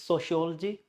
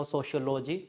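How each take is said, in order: First: Sociology as so-shi-OL-jee; sociology with no vowel after the L; stressed OL in sociology. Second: Sociology as socio-LO-jee; sociology split socio plus logy; wrong SOCIOLOGY. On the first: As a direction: squeeze the ending of sociology to "OL-jee". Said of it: "No, it's sociology". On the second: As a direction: sound a full "logy" in sociology. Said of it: "there is no sociology". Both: Shown as a demonstration.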